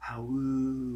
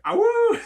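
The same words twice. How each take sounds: First: Soft, hushed wolf howl; quiet wolf howl. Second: Very high, loud wolf howl. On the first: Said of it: "but be quiet". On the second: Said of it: "you could just go like". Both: Pretend.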